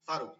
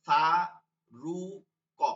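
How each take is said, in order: First: Said in the usual way. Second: "ফা, রু, ক" as three separate sounds with pauses; syllable by syllable. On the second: Shown as a demonstration. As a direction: break Faruk into "ফা", "রু", "ক". (থেমে থেমে "ফা, রু, ক") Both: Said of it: "তিনটা অক্ষর উচ্চারণ হচ্ছে".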